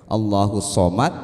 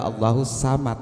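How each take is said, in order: First: The s sound is heavy and emphatic. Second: The s sound is light and plain. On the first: "antara shod dibaca sin" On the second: "shod dibaca sin"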